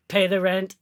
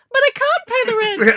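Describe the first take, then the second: First: Menacing old cartoon villain demand; mustache twirling villain. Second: Very high, loud wailing damsel; damsel in distress. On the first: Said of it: "mustache ... and you go". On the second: Pretend. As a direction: shriek like a melodrama heroine. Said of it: "bow in your hair, and you go".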